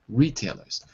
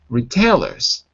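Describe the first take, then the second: First: The stress is on the first syllable. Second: The stress is not on the first syllable. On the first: The speaker calls it right. "So the stress is on the first syllable" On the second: The speaker calls it wrong. "But this time you said retailers. But it's not"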